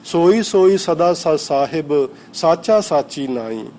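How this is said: The pause comes right after 'sahib'.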